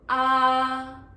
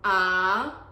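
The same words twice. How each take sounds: First: The pitch stays high and level. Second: The pitch dips low and comes back up. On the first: "the first tone ah" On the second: "third tone ah"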